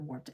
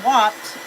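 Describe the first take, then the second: First: The r sound is clearly pronounced. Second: The r sound is dropped, Boston style.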